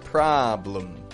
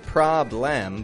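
First: The second syllable has a quick, quiet schwa. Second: The second syllable has a full, clear vowel. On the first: The speaker calls it right. "but problem. That quick and quiet" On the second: The speaker calls it wrong. "not problem"

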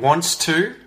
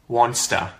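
First: Both words are said fully and separately. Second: The words blend into one reduced word. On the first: "wants to becomes wanster" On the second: "becomes wanster"

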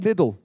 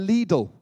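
First: It is said the British way. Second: It is said the American way.

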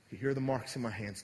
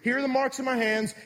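First: It is said in a warm, gentle tone. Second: It is said in an angry, impatient tone.

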